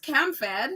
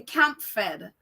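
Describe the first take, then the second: First: "Cam Fed" with no p; intended pronunciation. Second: "Camp Fed" drawn out, with a p; mispronounced name. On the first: Clarifying what she meant to viewers, intended "Cam Fed" without p. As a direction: say "Cam" ending on m, then "Fed". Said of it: "maybe that's my accent". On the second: Repeating a viewer's correction, mispronounced "Camp Fed" with a p. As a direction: say "Camp Fed" slowly, sounding the p. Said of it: "she said, "I keep saying". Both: Shown as a demonstration.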